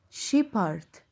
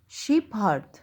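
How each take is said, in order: First: Shepherd as shep and herd, p and h apart; split into halves. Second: Shepherd again as shep then herd; split into halves. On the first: Teacher splitting shepherd in two for pupils. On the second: Teacher repeating shepherd split in two. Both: Shown as a demonstration. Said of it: "كأني قسمت الكلمة نصين".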